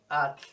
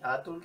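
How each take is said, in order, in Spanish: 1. La t y la l están unidas, sin vocal entre ellas. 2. Una vocal u separa la t y la l. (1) "es at, punto" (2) "ni atul"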